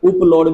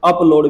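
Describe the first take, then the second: First: The word begins with an 'oo' sound. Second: The word begins with an 'ah' sound. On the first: "उपलोड भी पढ़ सकते हैं" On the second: "लेकिन लोग जो बोलते हैं स्पोकन में अप आता है"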